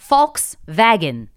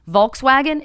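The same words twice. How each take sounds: First: It is said with a German pronunciation. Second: It is said with an American English pronunciation. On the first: The speaker calls it right. "is actually Volkswagen, because obviously it's not an English American company" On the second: The speaker calls it wrong. "you think you're pronouncing this word right, but you're not"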